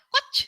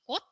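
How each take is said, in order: First: The word ends with a ch sound. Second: The word ends with a t sound. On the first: The speaker calls it wrong. "bukan dibaca koch" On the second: The speaker calls it right. "tapi kut, itu artinya bunga"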